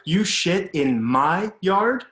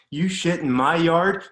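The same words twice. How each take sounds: First: Loud, higher and slow, each word hammered; slow furious shout. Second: Loud, higher raging question; furious shout. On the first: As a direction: drag it out, menacing, right in his face. Dad repeats, raging. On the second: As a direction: shake him as you shout it. Dad grabbing kid, raging. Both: Retold or imitated.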